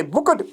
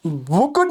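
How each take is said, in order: First: बुकट ending in a t sound; correct pronunciation. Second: बुकट with a full vowel before t; wrong pronunciation. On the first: Teacher shows students the right ending. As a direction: end बुकट with a clipped t. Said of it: "टो की आवाज़". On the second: Teacher shows students the wrong form. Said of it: "बुकट नहीं है". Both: Shown as a demonstration.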